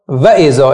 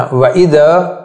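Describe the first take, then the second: First: و اذا stressed early, falling off at the end; wrong word stress. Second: و اذا slow, last syllable of اذا held and rising; correct word stress. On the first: Teacher showing students the mistake, و اذا stressed too early. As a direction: hit the front of و اذا and let ذا drop. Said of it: "و اذا اشتباهه". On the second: Teacher correcting the mistake, ذا in و اذا lengthened and lifted. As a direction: stretch the ذا at the end of و اذا. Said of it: "نه، و اذا". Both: Shown as a demonstration.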